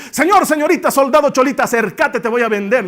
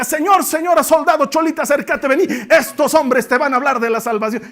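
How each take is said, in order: First: Loud, high market cry; La Paz street vendor loudly calling to shoppers; street vendor hawking. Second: Loud, high vendor cry; hawking for Paul. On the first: Retold or imitated. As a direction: hawk your wares to everyone passing. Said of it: "a gran voz". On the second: Acted. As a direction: sell the preachers like market goods. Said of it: "esta estaba ahí cerca".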